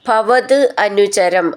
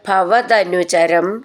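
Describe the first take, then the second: First: The two words are said separately. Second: The two words are run together as one.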